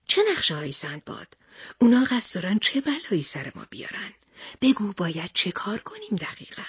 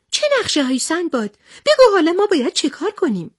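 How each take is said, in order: First: Hushed, husky character questioning; Pahlevan Panbeh's voice. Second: High, hurried, anxious character voice; worried Nokhodi. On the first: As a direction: drop the volume and press for answers. Pahlevan Panbeh stands up, asks. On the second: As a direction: pipe up urgently, pitched right up. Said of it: "همهٔ افراد نگران شدند". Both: Acted.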